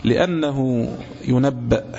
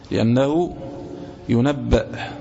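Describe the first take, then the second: First: Said in the usual way. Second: لأنه on a rising tone, pause, then ينبأ falling; split and stressed. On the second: Shown as a demonstration. (لأنه بنبرة صاعدة ثم وقفة ثم ينبأ بنبرة هابطة) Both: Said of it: "لأنه ينبأ، (repeated)".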